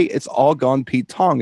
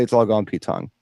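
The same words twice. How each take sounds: First: Slow, spelled-out phrase. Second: Said in the usual way. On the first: Shown as a demonstration. Host explaining Cockney slang to cohost, saying "It's all gone [name]" slowly. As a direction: lay out the catchphrase slowly for a friend. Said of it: "the Cockney actually say". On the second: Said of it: "they say".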